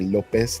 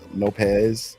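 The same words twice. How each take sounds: First: The name is said with Spanish sounds. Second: The name is said with English sounds. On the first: The speaker calls it right. "You have to say Lopez" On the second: The speaker calls it wrong. "not Lopez"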